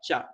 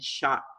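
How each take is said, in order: First: It begins with a sharp 'tch' sound. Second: It begins with a soft 'sh' sound. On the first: The speaker calls it right. "Mas tem som de tchá, tchá. Um som mais forte" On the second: The speaker calls it wrong. "não tem som de S H"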